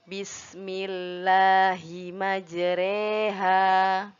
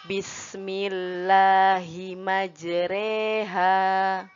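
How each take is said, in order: Both takes have the same delivery.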